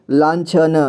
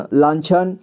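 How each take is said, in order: First: लांछन split as "laan-chha-na"; लांछन read piece by piece; sounded out. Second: Said in the usual way. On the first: Shown as a demonstration. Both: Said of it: "इसे संजय पढ़ेंगे".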